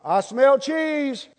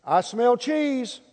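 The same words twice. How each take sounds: First: Slow, higher drawn-out catchphrase. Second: Slow drawn-out catchphrase. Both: Pretend. Drawn-out punchline.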